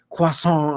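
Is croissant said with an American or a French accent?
French. It is said with a French pronunciation. The speaker calls it right. "It's it's croissant"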